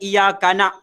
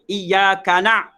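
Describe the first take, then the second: First: It ends with a plain glottal stop. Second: It ends with a throaty ain sound. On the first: The speaker calls it wrong. "Bukan iyaka na'" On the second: The speaker calls it right. "kekal bunyi ain"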